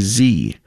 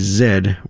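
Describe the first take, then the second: First: It is said the American way, zee. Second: It is said the Canadian way, zed.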